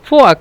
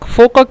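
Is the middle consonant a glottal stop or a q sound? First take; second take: glottal stop; q sound. First: The middle consonant is a glottal stop. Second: The middle consonant is a deep q sound. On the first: This is the regional Egyptian form. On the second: This is the standard form of the language.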